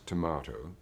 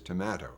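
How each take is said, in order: First: It uses a British Canadian pronunciation. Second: It uses a Toronto pronunciation. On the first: "the British Canadian pronunciation" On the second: "in Toronto there is tomato"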